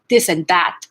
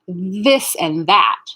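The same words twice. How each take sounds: First: The words begin with a d sound. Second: The words begin with a th sound. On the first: The speaker calls it wrong. "So you'll get a D sound" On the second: The speaker calls it right. "We want to say"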